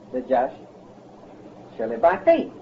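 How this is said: The stress is on the word faith.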